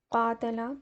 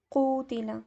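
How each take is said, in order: First: कातला with a long first "aa", a short "ta", then "la"; active form kaatala. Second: कूतिला with a long "oo" after k and an "i" on the t; passive form kootila. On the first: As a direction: say कातला as kaa-ta-la, long open first vowel. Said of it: "example है". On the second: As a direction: say कूतिला as koo-ti-la, rounded long first vowel. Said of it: "ये बन जाएगा". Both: Shown as a demonstration.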